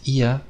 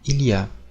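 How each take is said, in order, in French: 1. On le dit sous la forme courte et familière. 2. On le dit sous la forme complète. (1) "souvent les Français disent" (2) "au lieu de dire"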